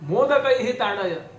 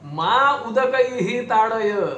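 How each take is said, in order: First: The opening is run together as one word. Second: The opening is split into two separate words. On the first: Hit me with sweet dumplings. "मोदकही ही ताडय म्हणजे काय, मोदकांनी मारा" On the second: Do not hit me with water. "अहो असं नाहीये, मा उदकही ही ताडय"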